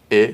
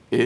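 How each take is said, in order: First: The vowel ا held long, as an open è. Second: The vowel ا said short, as a closed é. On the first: Teacher contrasting two French vowels for pupils, long open E. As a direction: stretch ا out, like French è. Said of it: "بلنده". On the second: Teacher contrasting two French vowels for pupils, short closed E. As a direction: keep ا brief and narrow, like French é. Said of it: "کوتاه". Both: Shown as a demonstration.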